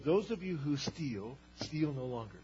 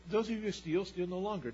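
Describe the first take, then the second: First: "Those of you who steal, steal no longer" said slowly with weight on "Those" and a falling end; slow pointed reread. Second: Said in the usual way. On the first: Shown as a demonstration. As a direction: lean on "Those" and let "steal no longer" drop. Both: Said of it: "why would he say".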